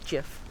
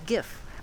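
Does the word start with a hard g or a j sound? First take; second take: j sound; hard g. First: The word starts with a soft j sound. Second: The word starts with a hard g sound. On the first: The speaker calls it wrong. "GIF is peanut butter. You don't pronounce it as GIF" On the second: The speaker calls it right. "it is GIF. I don't care what anybody says"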